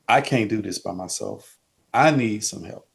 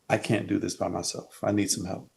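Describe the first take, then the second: First: It is said in an exaggerated, overdone way. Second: It is said in a plain, natural way. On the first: This imitates how the other person would say it. "If it was you, ... And that's extra" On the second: This is how the speaker would say it. "if it was me"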